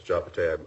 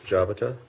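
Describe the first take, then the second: First: Jabate, with an "ay" sound at the end; corrected name pronunciation. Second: Jabata, with a short final "ah" sound; mispronounced name. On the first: Judge correcting the appellant's name, saying Jabate with a "-tay" ending. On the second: Judge calling the case by name, saying Jabata with a wrong "-ta" ending. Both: Real, not acted. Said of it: "I, I mispronounced".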